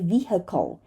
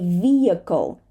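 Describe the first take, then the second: First: An h sound is heard in the middle. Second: No h sound is heard in the middle. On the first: The speaker calls it wrong. "We do not say vehicle" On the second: The speaker calls it right. "sometimes we even skip the H in the middle of a word"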